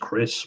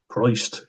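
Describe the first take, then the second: First: The name ends with a plain 's' sound. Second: The name ends with an 'st' sound. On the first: The speaker calls it wrong. "I thought it was Chris" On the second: The speaker calls it right. "but it's Christ"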